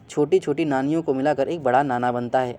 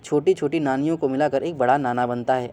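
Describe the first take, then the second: First: The l sounds are replaced with n. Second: The l sounds are replaced with n.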